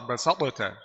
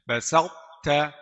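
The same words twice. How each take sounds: First: Both t sounds are said separately with a bounce. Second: The heavy t quality is kept before plain t. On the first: The speaker calls it wrong. "Kalau ada qalqalah jadi izhar" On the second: The speaker calls it right. "Jadi isti'la saja di lidah. Tapi tidak ada qalqalah"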